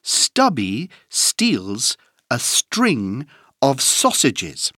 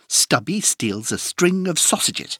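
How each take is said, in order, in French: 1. La phrase est dite à un rythme modéré. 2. La phrase est dite à un rythme rapide.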